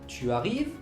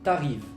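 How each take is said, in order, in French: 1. Le u de tu est prononcé. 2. Le u de tu disparaît.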